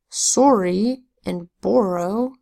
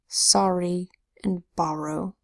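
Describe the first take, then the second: First: The O sounds like 'or'. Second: The O sounds like 'ah'. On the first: The speaker calls it wrong. "So we don't say" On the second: The speaker calls it right. "We say"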